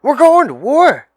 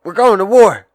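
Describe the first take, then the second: First: Even higher, full-volume alarmed yell; brother shouting louder. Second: Much higher, louder alarmed yell; big brother yelling a wake-up alarm; brother shouting. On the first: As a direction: push the news harder the second time. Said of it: "I said". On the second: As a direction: wake him up with the news, loud. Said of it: "He says". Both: Retold or imitated.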